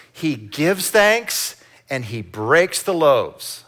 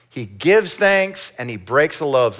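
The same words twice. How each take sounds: First: Slow emphatic. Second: Said in the usual way. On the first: Shown as a demonstration. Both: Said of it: "Let's say that with me".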